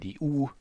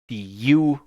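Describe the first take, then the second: First: The letter is said with a German sound. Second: The letter is said with an English sound.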